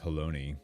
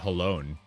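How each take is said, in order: First: The name rhymes with baloney. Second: The name does not rhyme with baloney. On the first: This is how it is actually pronounced. The speaker calls it right. "it's actually pronounced like baloney" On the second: This is how the speaker expected it to sound. The speaker calls it wrong. "I thought it would be Halone"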